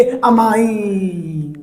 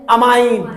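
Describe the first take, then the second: First: amine with its last vowel held very long; drawn-out correction. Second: Said in the usual way. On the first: Shown as a demonstration. Teacher correcting ammonia to the ligand name, amine drawn out. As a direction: stretch out the end of amine.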